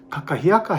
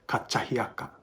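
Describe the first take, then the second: First: The second consonant is a plain k sound. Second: The second consonant is a ch sound. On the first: "kakahiaka has more than one K in it" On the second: "the second K is sometimes pronounced by kupuna as kachahiaka"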